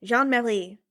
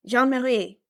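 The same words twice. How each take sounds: First: Jean-Marie with the R sliding into an L; R turned into L. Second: Jean-Marie with the R nearer the throat; attempted throaty R. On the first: Trying a Belgian woman's pronunciation, Jean-Marie with L for R. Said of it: "I always turn the R into an L". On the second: Retrying a Belgian woman's pronunciation, Jean-Marie with a throatier R. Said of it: "That was a little better". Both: Shown as a demonstration.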